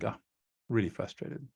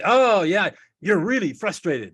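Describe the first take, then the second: First: Conversational. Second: High, loud, drawn-out emphatic empathy; match their worked-up intensity, stretching the words; coming in underneath. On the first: Listener trying the label a second time, soft and conversational. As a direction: say it softly, as casual conversation. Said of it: "do it conversationally with just one emotion". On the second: Listener labeling an upset partner's feeling, emphatic matching intensity. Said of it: "I'll come in right underneath her". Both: Shown as a demonstration.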